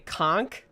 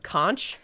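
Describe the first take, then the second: First: It is said with the Florida regional pronunciation. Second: It is said with a non-Florida pronunciation. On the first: This is how people from Florida say it. "you guys say conch" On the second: This is how people elsewhere say it. "instead of conch"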